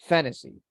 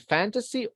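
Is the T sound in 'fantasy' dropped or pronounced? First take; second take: dropped; pronounced. First: The T sound in the middle is left out. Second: The T sound in the middle is clearly pronounced. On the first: "or you can omit it" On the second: "You can pronounce the letter T"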